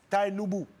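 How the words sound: The name is pronounced the English way.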